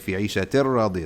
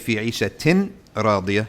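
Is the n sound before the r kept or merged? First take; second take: merged; kept. First: The n sound merges into the r. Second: A clear n sound comes before the r. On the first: The speaker calls it right. "You say ... The noon sound will go into the ra" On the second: The speaker calls it wrong. "you don't say"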